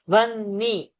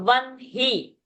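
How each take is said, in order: First: The middle has a long n, no h. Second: The middle has an audible h sound. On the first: The speaker calls it wrong. "and not Vanni" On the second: The speaker calls it right. "So Vanhi"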